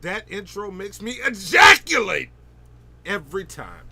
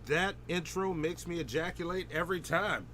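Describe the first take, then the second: First: It is said with heavy, energetic emphasis. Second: It is said plainly, without extra emphasis. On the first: The speaker calls it right. "you got to put an emphasis on the bold letters" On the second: The speaker calls it wrong. "You didn't say it right"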